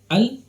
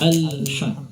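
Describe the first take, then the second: First: The L sound stops abruptly without flowing. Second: The L sound flows on briefly before ending.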